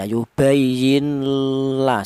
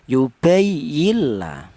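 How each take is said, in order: First: The n is held with a nasal hum. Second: The n merges fully into the l sound. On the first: The speaker calls it wrong. "Kalau ada dengungnya salah ya" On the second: The speaker calls it right. "Sudah huruf nun mati ini sudah langsung menyatu ke huruf lam ya"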